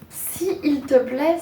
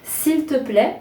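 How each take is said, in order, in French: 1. Les deux voyelles se prononcent séparément, en deux syllabes. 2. La première voyelle tombe, il ne reste qu'une syllabe. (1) "c'est compliqué et c'est relativement lourd" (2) "en enlevant l'une des deux lettres"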